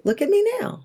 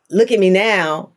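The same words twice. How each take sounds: First: Soft and much higher, in awe; hushed, astonished high lift on me; quiet high wonder. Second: Said in the usual way. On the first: Shown as a demonstration. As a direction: say it as a marvel, not a boast. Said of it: "but it was a". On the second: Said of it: "it wasn't a".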